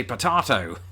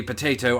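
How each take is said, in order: First: Potato as "puh-TAH-toh"; British potato. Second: Potato as "puh-TAY-toh"; American potato. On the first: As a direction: say "potato" with an open AH. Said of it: "I say potato". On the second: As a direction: say "potato" with a long AY. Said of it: "You say potato". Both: Shown as a demonstration.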